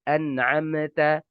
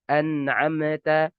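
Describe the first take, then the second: The two takes are said the same way.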